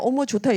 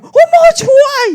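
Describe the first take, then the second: First: It is said in a restrained, calm way. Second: It is said in an exaggerated, showy way.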